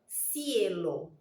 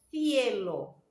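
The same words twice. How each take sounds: First: The first consonant is an s sound. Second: The first consonant is a th sound. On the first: This is the Latin American pronunciation. "en Latinoamérica también tiene la misma pronunciación" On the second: This is the pronunciation of Spain. "en el español de España"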